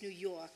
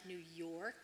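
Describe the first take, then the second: First: The R sound in York is dropped. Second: The R sound in York is clearly pronounced. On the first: "we don't say R's" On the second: "it's not New York"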